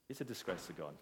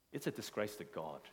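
First: Even quieter emphasis. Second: Dropped low and soft, "disgrace" weighted; quiet emphasis. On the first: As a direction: lower and softer still, "disgrace" sinking. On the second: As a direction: say it low and heavy, almost under the breath. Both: Shown as a demonstration.

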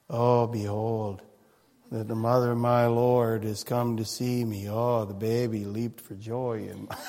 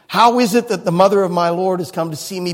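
First: Drain every bit of joy from it, mockingly; flat bored mockery. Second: Joyful cry. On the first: Preacher mocking a joyless Elizabeth greeting Mary, low flat drone. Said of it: "Try and say that without a smile on your face". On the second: Retold or imitated. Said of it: "She cried out with a loud voice".

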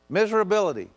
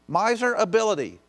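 First: "Miserability" as one smooth word; joined word. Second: "Miser ability" dipecah jelas jadi dua kata; split word. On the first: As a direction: run "Miserability" together without a break. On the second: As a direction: pause between "Miser" and "ability" to show the root. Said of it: "Miser and miserable". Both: Shown as a demonstration.

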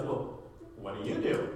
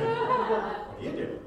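First: Mock punk guy. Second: Sung very high and slow through a laugh; amused high sing-song repeat. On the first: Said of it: "he looks at me and goes". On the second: Pretend. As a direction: sing the question back, laughing. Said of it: "It's always my favorite question".

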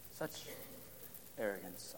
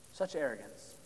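First: Much softer, almost breathed, lower; a quiet echo of disgust; hushed repeat. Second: Said in the usual way. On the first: Acted. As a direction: let it sink in with a hush. Preacher repeats phrase for weight.

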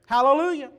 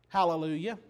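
First: Louder and higher, ringing out; fervent hallelujah. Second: Said in the usual way. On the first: Real, not acted. Preacher to congregation, exclaiming the word with joy. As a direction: proclaim it with joy. Repeats it with fervour.

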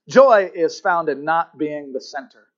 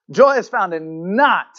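First: Said in the usual way. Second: "not" punched loud and drawn out; slow line landing heavily on "not"; stress on NOT. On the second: Shown as a demonstration. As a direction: hit the word "not" hard, then pause. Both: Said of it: "emphasize the word not".

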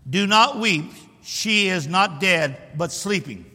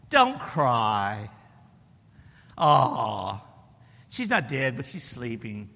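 First: Firm, measured declaration; bold, emphatic pronouncement; boldness and authority. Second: Low, drawn-out mock soothing; too-nice consoling. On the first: Acted. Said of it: "He said it with boldness and authority". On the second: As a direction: coo it like a pushover comforting someone. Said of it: "Do you believe that's how he said it?".

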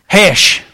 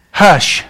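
First: 'Hesh' said with a short e, like hesh; country 'Hesh' for hush. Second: Said in the usual way. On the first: Shown as a demonstration. Preacher says Samuel's word as 'Hesh', short e. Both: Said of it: "Literally, that's what he said".

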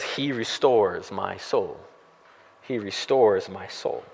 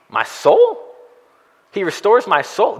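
First: Much softer, slow, low recitation; reverent quoting. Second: High, baffled "soul?" rising; incredulous questioning. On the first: Pastor reading David's verse to the congregation, soft and slow. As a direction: let the verse settle gently, slowly. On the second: Pastor mock-questioning David's odd phrase, high and baffled. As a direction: sound puzzled, as if David changed topic. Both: Shown as a demonstration.

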